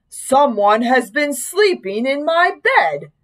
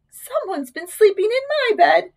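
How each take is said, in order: First: Slow, big bear voice; great big Papa Bear voice. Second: High-pitched mother bear; middle-sized Mama Bear voice. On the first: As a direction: say it slowly and big, like father bear. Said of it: "said in his great big voice". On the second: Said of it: "said in her middle-sized voice". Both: A narrator's reading.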